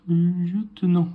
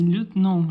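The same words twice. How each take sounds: First: "lieutenant" slowly, with the French "lieu" sound; French pronunciation. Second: "lieutenant" dit "lèt-nan", sans le son "ieu"; prononciation à l'étrangère. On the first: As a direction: draw out "lieutenant" as "lieu-te-nant". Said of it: "pardon, Surge". (« lieutenant » lentement, à la française) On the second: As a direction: say "lieutenant" as "let-nan", first syllable like "let". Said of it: "Eux, ils disaient lieutenant". (prononcer « lieutenant » « lèt-nan ») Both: Shown as a demonstration.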